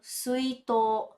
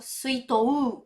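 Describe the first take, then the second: First: The word ends with a long held o. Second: The word ends with a separate 'ou' sound. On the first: The speaker calls it right. "Esse to, tá vendo que ele tá prolongado?" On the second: The speaker calls it wrong. "A gente não fala, né? ... Ou então suitou. Não"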